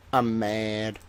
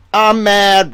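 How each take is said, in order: First: Much softer, lower deflated aside; quiet grumble. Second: Louder, higher hammed-up outburst; mock angry. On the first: Acted. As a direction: say it under your breath, sulking. Same words muttered quietly. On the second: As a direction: throw it out like a fake tantrum. Repeating I'm mad angrily.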